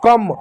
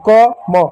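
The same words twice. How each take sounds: First: कम run together as one syllable; blended word. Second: क and म as separate syllables, each with its vowel; letter by letter. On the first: Teacher showing children the joined word, blended कम. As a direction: join the letters into कम. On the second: Teacher spelling out for children before blending, separate क, म. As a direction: sound out क, then म. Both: Shown as a demonstration. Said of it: "तो एक साथ बोलो".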